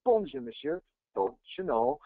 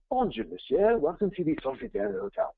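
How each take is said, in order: First: Put-on French greeting in a Minnesotan accent. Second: Hammed-up French greeting; French accent. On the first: Minnesota doorman greeting a hotel guest in French, mock Minnesotan accent. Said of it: "like, a Minnesotan accent". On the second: Doorman welcoming a guest to a French hotel, hammed-up French accent. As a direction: put on a French accent, pitched higher. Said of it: "French accent you're gonna get".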